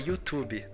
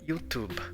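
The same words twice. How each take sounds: First: An extra vowel sound follows the final consonant. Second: It ends cleanly on the final consonant. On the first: The speaker calls it wrong. "a gente transforma ele num Y" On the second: The speaker calls it right. "Percebe esse som de B"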